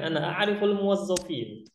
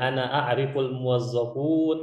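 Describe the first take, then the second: First: The last word ends with the sound -in. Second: The last word ends with the sound -un. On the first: The speaker calls it right. "seharusnya seperti itu" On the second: The speaker calls it wrong. "yang dia bilang"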